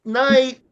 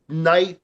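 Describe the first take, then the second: First: High yelled call. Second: Said in the usual way. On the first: Retold or imitated. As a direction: pitch jumps up, louder call. Calling out before punching.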